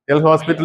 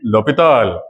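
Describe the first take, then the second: First: The s sound in the middle is pronounced. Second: The s sound in the middle is silent. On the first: The speaker calls it wrong. "L hospital is actually wrong" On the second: The speaker calls it right. "that is L'Hopital"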